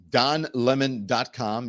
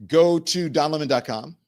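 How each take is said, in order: First: "Don lemon dot com" spelled out slowly, each word stressed; slow emphatic repeat. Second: Said in the usual way. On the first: Shown as a demonstration. Host repeats his web address slowly for viewers, stressing each word.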